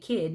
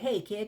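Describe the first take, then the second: First: It sounds dismissive and condescending. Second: It sounds warm and affectionate.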